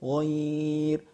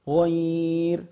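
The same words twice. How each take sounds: First: The vowel is held for six counts. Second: The vowel is held for four counts.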